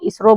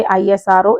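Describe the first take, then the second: First: Isro read as a single word, "इसरो"; said as one word. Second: आईएसआरओ read as separate letters, ई-एस-आर-ओ; spelled letter by letter. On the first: Teacher showing students the right reading, as one word. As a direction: say isro whole, like a word, not letters. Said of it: "इनको पूरा ऐसे पढ़ते हैं". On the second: Teacher showing students the wrong way, letter by letter. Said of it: "ऐसे नहीं पढ़ेंगे". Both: Shown as a demonstration.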